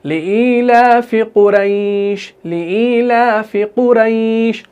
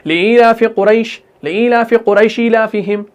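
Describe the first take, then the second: First: Slow chant with long "ai" in कुरैश; smooth, lingering glide through the "ai" of कुरैश; soft leen recitation. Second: Brisk chant with short "ai" in कुरैश; hard, wrong recitation. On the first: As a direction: draw कुरैश out gently on a level tone. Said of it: "बल्कि नरमी से अदा करना है". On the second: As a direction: clip the "ai" of कुरैश, no glide. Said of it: "अगर हम सख्ती से उसको पढ़ेंगे". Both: Shown as a demonstration.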